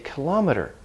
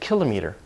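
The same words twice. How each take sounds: First: The main stress falls after the prefix kilo. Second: The main stress falls on the prefix kilo. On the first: This is the more natural way today. "where it's adopted a Latin stress pattern. The stress is moved" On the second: This is the older way the word was said. "Kilo, stress there, that's a Greek pattern"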